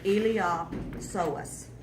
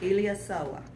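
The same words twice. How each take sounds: First: The P and the final S are sounded. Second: The P and the final S are silent. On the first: This helps to remember the spelling. "But to spell it, you may want to say Iliopsoas" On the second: This is how the word is normally pronounced. "The P is silent, and I think the last S is silent"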